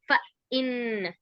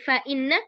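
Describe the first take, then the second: First: The sounds are broken apart with small pauses. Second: The sounds are joined smoothly without breaks. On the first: The speaker calls it wrong. "bukan fa inna" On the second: The speaker calls it right. "disambung ya"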